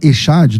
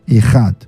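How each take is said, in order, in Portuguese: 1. A consoante do meio é um 'sh' suave. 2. A consoante do meio é um raspado gutural forte. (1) "eu sei que o pessoal fala Eshad, né? Porque aparece um C H aí" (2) "como um R mais forte do que o R do carro"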